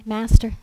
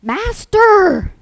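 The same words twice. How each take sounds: First: Mild, understated polite call; polite address. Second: High, loud cry for help; panicky yell. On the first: Disciples gently waking their sleeping teacher, polite and mild. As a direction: politely try for his attention. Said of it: "didn't come to him and poke him". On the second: Disciples waking Jesus in the storm, panicky yell. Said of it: "they were panicky and yelled". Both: Acted.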